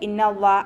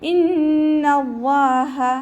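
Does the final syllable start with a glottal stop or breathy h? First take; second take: glottal stop; breathy h. First: The final syllable starts with a glottal stop. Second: The final syllable starts with a breathy throat h. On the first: The speaker calls it wrong. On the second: The speaker calls it right.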